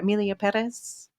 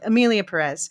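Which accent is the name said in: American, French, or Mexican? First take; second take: Mexican; American. First: It is said in a Mexican accent. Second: It is said in an American accent.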